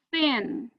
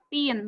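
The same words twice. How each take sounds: First: It starts with air blown past the tongue. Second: It starts with a stopped sound, no airflow. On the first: The speaker calls it right. "tapi thin ... bite your tongue and blow the air outside" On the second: The speaker calls it wrong. "bukan thin"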